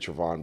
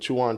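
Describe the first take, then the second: First: The name starts with a tr sound. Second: The name starts with a ch sound. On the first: The speaker calls it right. "it's actually Trevon" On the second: The speaker calls it wrong. "she was just saying it wrong. She said Chuan"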